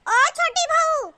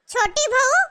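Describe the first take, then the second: First: High, slow, insistent summons; drawn-out call. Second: Short call with a rising end. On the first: Mother-in-law to unanswering younger daughter-in-law, insistent drawn-out call. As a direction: stretch it out, falling at the end. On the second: Mother-in-law seeking the cook, calling out. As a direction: summon someone from another room. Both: Acted.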